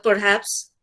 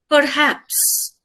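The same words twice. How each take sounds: First: Said in the usual way. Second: "perhaps" set apart by pauses, slightly raised; stress on perhaps. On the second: Real, not acted. Lecturer qualifying her explanation, stress on "perhaps". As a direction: weigh "perhaps" as a word of its own, pausing after it. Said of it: "I stress the word perhaps".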